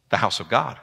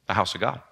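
First: Said in the usual way. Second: "The house of God" dropped much softer; hushed emphasis. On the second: Real, not acted. Preacher reminding church it is God's house, hushed. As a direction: let "The house of God" sink to a hush. Repeated phrase, quiet.

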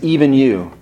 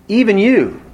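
First: Said in the usual way. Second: "Even" lifted high, then "you" falls away; hurt emphasis on "Even", as if betrayed by a friend; stress on EVEN. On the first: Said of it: "Notice that phrase". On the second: Shown as a demonstration. Preacher showing how a friend's betrayal sounds, stressing "Even". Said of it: "If I'm gonna emphasize it".

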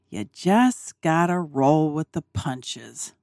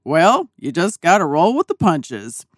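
First: Slow, softer, musing repetition; reflective murmur. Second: Dad's calm advice. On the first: Sitting alone in the dinette pondering dad's words, slow and soft. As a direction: turn the words over slowly to yourself. Thinking about what he said. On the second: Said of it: "imagine my dad saying this". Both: Retold or imitated.

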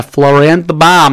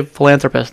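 First: Philanthropist stumbled as flo-ran-tha-pa; garbled philanthropist, syllables slurred; mispronounced philanthropist. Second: Philanthropist said cleanly as fuh-LAN-thruh-pist; philanthropist, every syllable right; clear philanthropist. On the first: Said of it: "how do you say philanthropist". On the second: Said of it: "when I was trying to not say it, I could say it". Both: Real, not acted.

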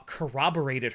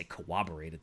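First: Said in the usual way. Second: "corroborated" garbled as "cowobberated", low and quick; mispronounced word. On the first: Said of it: "I was gonna say corroborated". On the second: Shown as a demonstration. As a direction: say "corroborated" with a W in place of the first R, "co-wobberated". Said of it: "That's not a word".

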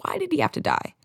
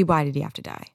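First: High pained plea; anguished cry. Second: Said in the usual way. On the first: Real, not acted. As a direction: cry out in real grief. Grieving TV character's death.

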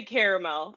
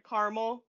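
First: "caramel" in full as "CARE-uh-mel"; three-syllable caramel. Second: "Caramel" squeezed to "CAR-mul"; two-syllable caramel. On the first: Shown as a demonstration. Woman refusing the fancy version, "caramel" as "care-uh-mel". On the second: Real, not acted. Guest answering a spelling quiz, "Caramel" said as "car-mul". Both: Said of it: "I can't say caramel".

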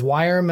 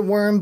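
First: "Wyrm" said like "wire-m"; alternative pronunciation Wyrm. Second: "worm" said like earthworm, one syllable; usual pronunciation worm. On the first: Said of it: "I heard people pronounce it as Wyrm". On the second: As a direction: say "worm" to rhyme with term. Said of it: "I have always pronounced it worm". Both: Shown as a demonstration.

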